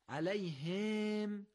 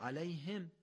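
First: The short vowel is drawn out long. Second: The short vowel is kept short. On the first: The speaker calls it wrong. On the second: The speaker calls it right.

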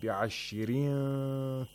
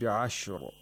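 First: The word runs on and the ra is light. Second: The word ends here and the ra is heavy. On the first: The reciter continues to the next word. "if we continue, the ra is pronounced with tarqiq" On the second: The reciter pauses at this word. "If we stop, the ra is pronounced with tafkhim"

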